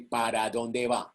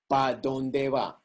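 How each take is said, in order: First: The first word is said with both syllables. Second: The first word is cut to one syllable. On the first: "We don't say" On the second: "I say, ... I kill the ere"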